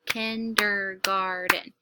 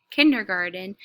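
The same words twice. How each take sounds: First: "Kindergarten" slow, in four beats, KIN, DER, GAR, TEN; syllable by syllable. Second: Said in the usual way. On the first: Shown as a demonstration. Teacher claps to check the count, "Kindergarten" slowly split by syllable. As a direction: clap out "Kindergarten" one syllable at a time. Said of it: "I'm gonna clap the word". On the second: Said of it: "I'm gonna read the word".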